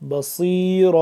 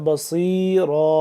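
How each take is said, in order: Both takes have the same delivery.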